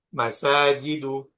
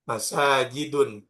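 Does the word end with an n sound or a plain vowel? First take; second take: plain vowel; n sound. First: The word ends on a plain vowel, no n. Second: The word ends with an added n sound. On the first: The speaker calls it right. "termasuk isim ghairu munsharif" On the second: The speaker calls it wrong. "nggak boleh dibaca masajidun"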